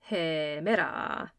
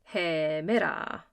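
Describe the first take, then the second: The two takes are said the same way.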